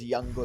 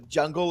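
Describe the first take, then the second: First: The word begins with a Y sound. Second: The word begins with an English J sound. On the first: "It's it's always a Y" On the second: "call outs that start with a J"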